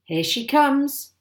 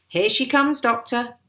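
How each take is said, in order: First: High, loud, slow announcement; drawn-out excited call. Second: Quicker, raised call to someone; eager, high-pitched heads-up. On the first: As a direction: call it out, stretching the last word. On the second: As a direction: call the news over, loud and high. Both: A narrator's reading. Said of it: "my father called out".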